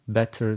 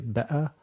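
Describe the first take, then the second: First: The middle t sound is clearly pronounced. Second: The middle t sound is dropped entirely. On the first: "c'est pas batter" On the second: "caractéristique de sauter les T"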